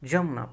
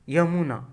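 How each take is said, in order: First: The word begins with a j sound. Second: The word begins with a y sound. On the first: "यमुना को हम लोग जमुना पढ़ते हैं" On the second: "जैसे यमुना"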